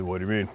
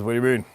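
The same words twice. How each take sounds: First: A hint of a deep, booming buddy; mild imitation of a big man's deep voice; deep barrel voice. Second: Said in the usual way. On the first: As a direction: lightly drop into his big barrel voice. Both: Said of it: "He's got one of those deep barrel voices".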